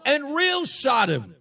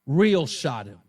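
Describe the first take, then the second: First: Real stretched out slowly, higher; stress on real. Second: "Real" dropped much lower, loud and firm; low punch on real. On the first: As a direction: lean into "real", slow and drawn. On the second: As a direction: hit "Real" low and flat. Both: Real, not acted. Repeats phrase for emphasis.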